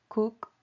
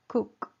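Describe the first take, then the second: Both takes have the same delivery.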